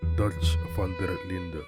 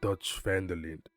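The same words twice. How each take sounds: First: The name is said with Dutch sounds. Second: The name is said with English sounds. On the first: The speaker calls it right. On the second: The speaker calls it wrong.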